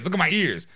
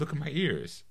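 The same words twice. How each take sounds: First: It is said in an exaggerated, over-the-top way. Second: It is said in a calm, polished, restrained way.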